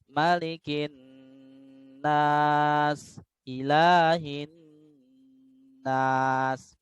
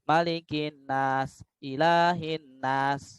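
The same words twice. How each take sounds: First: The nasal sound is held long. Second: The nasal sound is cut short, rushed. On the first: The speaker calls it right. "harus digunakan" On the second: The speaker calls it wrong. "Gak boleh ... itu terlalu terburu-buru ya di dalam gunahnya"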